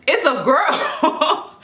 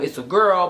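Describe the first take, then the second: First: High, drawn-out echo in disbelief; freaked-out shock. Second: Said in the usual way. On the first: Retold or imitated. Mother hears the intercom announce a girl, freaked out. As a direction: act out a stunned, stretched repeat. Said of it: "I'm, like, freaking out". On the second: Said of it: "she's like".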